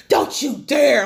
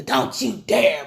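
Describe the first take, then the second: First: Loud, sharp don't you dare; daring warning. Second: Slow drawn-out don't you dare, mocking it; mocking her warning. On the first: Retold or imitated. Daughter confronting her parents, a loud warning. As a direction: warn them off, hard. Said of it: "She's all like". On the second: Mocking the daughter's finger-pointing line, slow and drawn out. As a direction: drag out dare to make fun of it. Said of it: "she hit the "Don't you dare" pointing the finger".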